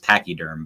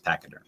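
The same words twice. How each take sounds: First: The word is pronounced in a careful, formal way. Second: The word is pronounced in a relaxed, casual way. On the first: This is the technically correct pronunciation. "technically, it'd be more correct to pronounce it as pachyderm" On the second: This is the everyday colloquial pronunciation. "the colloquial way or whatever, the casual way is pachyderm"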